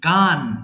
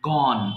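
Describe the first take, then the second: First: The vowel is an open 'a' sound. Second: The vowel is a rounded 'o' sound. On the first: The speaker calls it wrong. "মাঝে মধ্যে we pronounce গান, but গান is wrong" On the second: The speaker calls it right. "We have to pronounce গন"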